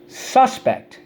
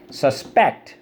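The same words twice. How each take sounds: First: "Suspect" as the noun, SUS-pect, SUS high and loud; stress on first syllable. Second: "Suspect" as the verb, sus-PECT; light first syllable, punch the PECT of "Suspect"; stress on second syllable. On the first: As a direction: punch SUS high, let pect fall. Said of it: "A person who's accused of a crime". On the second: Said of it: "when you think something's fishy". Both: Shown as a demonstration.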